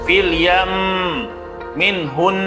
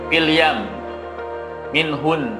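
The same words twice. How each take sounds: First: The doubled m and n are held with pressure. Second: The doubled m and n are clipped without pressure. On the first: The speaker calls it right. "jadi ada nabar, ada tekanan" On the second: The speaker calls it wrong. "nah itu tidak ada penekanan"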